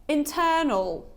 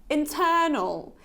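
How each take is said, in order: No difference in how they are said.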